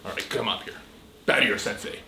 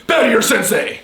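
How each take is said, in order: First: Unvoiced, quiet order; whispered command. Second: Higher, louder barked order; sharp martial arts commands. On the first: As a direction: say it under your breath. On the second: Acted. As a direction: bark it like a drill sensei. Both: Sensei repeats command louder.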